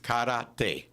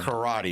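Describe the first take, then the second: First: It is said with a Japanese-style pronunciation. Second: It is said with an English-style pronunciation. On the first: The speaker calls it right. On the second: The speaker calls it wrong.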